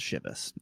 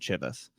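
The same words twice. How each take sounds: First: It does not begin with a hard 'ch' sound. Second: It begins with a hard 'ch' sound. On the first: The speaker calls it right. "it turns out it's pronounced Chivas" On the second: The speaker calls it wrong. "my last name is Chapinar, Ch, so I thought it was Chivas"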